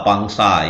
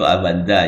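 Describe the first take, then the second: First: Z becomes S and N becomes ng. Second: Said with a clear V, Z and N. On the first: The speaker calls it wrong. "lidah-lidah orang Bugis itu tidak bisa menyebut dengan tepat" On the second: The speaker calls it right. "Padahal maksudnya itu Avanza ya"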